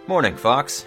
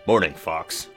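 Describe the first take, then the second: First: It is said in an ordinary voice. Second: It is said in a very deep voice.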